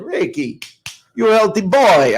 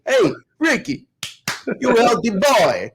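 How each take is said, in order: First: Lightly voiced Chicago Italian aunt, a bit higher on boy; a hint of a Chicago Italian auntie's lilt. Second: Chicago Italian aunt. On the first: Nephew recalls his Chicago Italian aunt, lightly done accent. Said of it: "she talked like this". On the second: Retold or imitated. Nephew imitates his aunt's teasing, higher Chicago Italian accent. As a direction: draw out "you healthy boy" like a Chicago Italian aunt. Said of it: "insulted by your accent".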